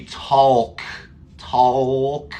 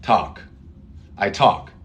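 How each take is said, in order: First: "talk" with an L sounded before the k, as a mistake; wrong L sound. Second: "talk" with a plain aw vowel and no L; easy way. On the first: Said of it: "No, we don't say talk". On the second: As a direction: say "talk" simply. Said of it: "We say, the easy way is". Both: Shown as a demonstration.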